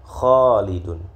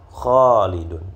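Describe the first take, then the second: The two takes are said the same way.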